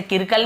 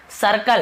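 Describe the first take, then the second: First: किरकल starting with a K sound; hard-C mispronunciation. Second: सर्कल starting with an S sound; soft-C pronunciation. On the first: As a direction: open किरकल on "kir" instead of "sir". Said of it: "ऐसे किरकल नहीं". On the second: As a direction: open सर्कल on "s", as in "sir". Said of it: "हम इसे स पढ़ रहे हैं". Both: Shown as a demonstration.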